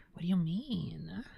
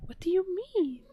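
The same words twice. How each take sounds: First: Said in the usual way. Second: Squeaky high cat-talk question. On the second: Real, not acted. Talking to the cat, higher.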